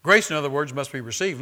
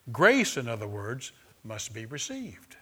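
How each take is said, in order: First: "Grace" called out much louder; emphatic repeat. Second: Said in the usual way. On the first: Acted. Preacher repeats "Grace" to his congregation, much louder. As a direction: belt out "Grace" to drive the point home.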